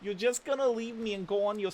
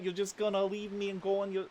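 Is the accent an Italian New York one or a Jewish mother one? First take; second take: Jewish mother; Italian New York. First: It is said in a stereotypical Jewish mother accent. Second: It is said in an Italian New York accent.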